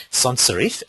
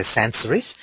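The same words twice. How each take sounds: First: Said in the usual way. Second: "sans" with a flat a, as in "hands", in "sans serif"; alternative pronunciation. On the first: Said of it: "Some people say sans serif". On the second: Shown as a demonstration. Presenter showing how some people say it, alternative pronunciation. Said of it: "Some people say".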